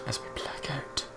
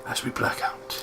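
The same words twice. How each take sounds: First: Soft unvoiced echo of the line; echoing whisper. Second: Unvoiced dramatic whisper. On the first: Friend echoes the scene cut, a softer whisper. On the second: Narrator closes the scene, a dramatic whisper. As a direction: breathe it like a scene fading out.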